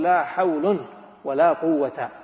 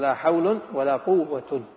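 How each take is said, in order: First: The first noun ends in -un, the second in -a. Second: Both nouns end with the nominative -un ending. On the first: Only the second negation governs its noun. "الأول مهملة والثانية عاملة" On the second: Neither negation governs its noun. "الأول مهمل والثاني مهمل"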